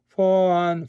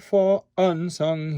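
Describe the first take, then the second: First: The vowels run together with no R or break. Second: A glottal stop separates the two words. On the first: The speaker calls it wrong. "it sounds dumb if you say song for un" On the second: The speaker calls it right. "do a glottal stop on un"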